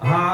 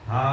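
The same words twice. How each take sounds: First: The syllable is said on a high pitch. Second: The syllable is said on a level pitch. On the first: "ఊర్ధ్వం అన్నమాట" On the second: "మామూలుగా అనొచ్చు"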